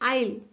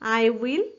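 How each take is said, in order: First: The words merge into one short syllable. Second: Both words are said in full, two syllables. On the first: "त्याचा काय होईल आईल"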